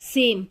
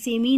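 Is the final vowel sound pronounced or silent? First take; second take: silent; pronounced. First: The word ends without a final vowel sound. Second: The word ends with an added ee sound. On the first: The speaker calls it right. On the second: The speaker calls it wrong.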